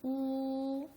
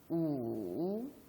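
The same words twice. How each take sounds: First: The pitch stays high and level. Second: The pitch dips low, then rises. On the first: "제1" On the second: "제3"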